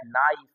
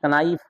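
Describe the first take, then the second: First: नाइफ said without any k sound; silent-K pronunciation. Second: कनाइफ with the k sounded before n; mistaken pronunciation. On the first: Shown as a demonstration. Teacher shows pupils the written word, नाइफ with silent k. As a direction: drop the k, start नाइफ on n. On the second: Retold or imitated. Teacher mimics pupils misreading, कनाइफ with audible k. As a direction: voice the k in कनाइफ as a learner would. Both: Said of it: "कनाइफ पढ़ लेगा".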